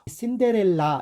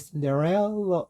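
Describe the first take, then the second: First: The final vowel is said fully. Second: The final vowel is very light. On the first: The speaker calls it wrong. "이렇게 하잖아요" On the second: The speaker calls it right. "맨 끝에 A가 굉장히 가볍게 처리됩니다"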